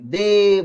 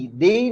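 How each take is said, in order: First: दे with a long "ay" vowel. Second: दे as the form not to use; rejected pronunciation. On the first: Teacher showing students how they is said, long vowel. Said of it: "लेकिन वो लंबा स्वर है". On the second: Teacher showing students how not to say they, rejected pronunciation. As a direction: say दे as the version being ruled out. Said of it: "दे नहीं बोलते हम". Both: Shown as a demonstration.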